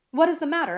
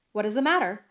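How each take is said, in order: First: High, slightly nervous question; mildly quavering. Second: Said in the usual way. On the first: A narrator's reading. Passenger answering the guard, mildly quavering. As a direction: ask with a touch of quaver. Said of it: "with mildly quavering speech".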